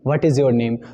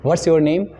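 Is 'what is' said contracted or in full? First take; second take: in full; contracted. First: 'What is' is said as two full words. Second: 'What is' is shortened to one syllable, 'what's'. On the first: "व्हाट्स का मतलब यहाँ पे व्हाट इज़" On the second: "short form में हम उसे व्हाट्स कह देते हैं"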